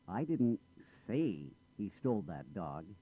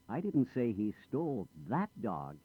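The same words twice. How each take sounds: First: The word say carries the main stress. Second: The word that carries the main stress. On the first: It was implied rather than said. "I didn't say it. I might have implied it" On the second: He took a different dog. "Not that dog. He stole another dog"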